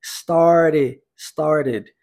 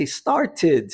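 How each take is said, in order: First: STARTED with the middle T tapped, American style. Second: STARTED with a clear T before the ending; British-style T. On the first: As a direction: turn the second T of STARTED into a flap. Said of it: "T transformado em R". (STARTED com o T transformado em R) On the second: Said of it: "no inglês britânico, inclusive, isso vai acontecer". (STARTED com T britânico, bem marcado) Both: Shown as a demonstration.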